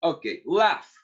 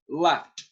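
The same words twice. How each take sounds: First: Said in the usual way. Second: Laughed ending in a crisp T, said laft; laughed modelled as laft, the T clear; past ending as T. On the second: Shown as a demonstration. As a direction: say laughed with a final T sound for the class to repeat. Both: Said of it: "Yo lo digo, ustedes lo repiten".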